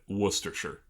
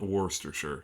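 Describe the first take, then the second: First: The first syllable sounds like 'wuss'. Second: The first syllable sounds like 'wor'. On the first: The speaker calls it right. "Wuss. Like you're calling someone a wuss" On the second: The speaker calls it wrong. "not Worcestershire"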